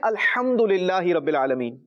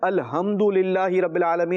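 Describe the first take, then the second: First: The h is a strong throaty sound. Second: The h is a light breathy sound. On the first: All praise belongs to God. The speaker calls it right. "इसकी सही प्रोनाउंसिएशन है" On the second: All blame and evils belong to God. The speaker calls it wrong. "अल्हम्द की जगह पर"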